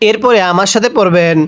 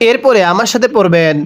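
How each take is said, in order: Both takes have the same delivery.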